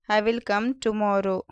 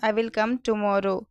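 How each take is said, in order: Both takes have the same delivery.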